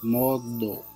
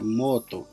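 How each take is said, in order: First: The middle consonant is a d sound. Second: The middle consonant is a t sound. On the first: The speaker calls it right. "se pronuncia modo" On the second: The speaker calls it wrong. "No se pronuncia moto"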